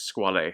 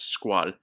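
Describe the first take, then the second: First: Squale in two syllables, ending in "ay"; Italian pronunciation. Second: Squall as one syllable, no sounded final vowel; founder's daughter's pronunciation. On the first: Reviewer quoting the Italian owner, Squale with final vowel sounded. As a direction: say Squale the Italian way, "skwah-lay". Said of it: "the Italian owner, says". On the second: Reviewer quoting the founder's daughter, Squall in one French-style syllable. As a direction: say Squall as "skwahl". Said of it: "she pronounces it as Squall". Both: Retold or imitated.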